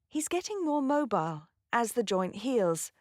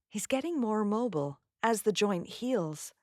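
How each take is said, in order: First: It is said in a British accent. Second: It is said in an American accent.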